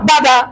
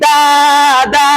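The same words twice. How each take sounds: First: Both vowels are said short and quick. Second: Both vowels are drawn out long. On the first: The speaker calls it right. "হরকতের উচ্চারণ তাড়াতাড়ি" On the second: The speaker calls it wrong. "যদি টেনে পড়ি তখন মাদে রূপান্তরিত হয়ে গেল"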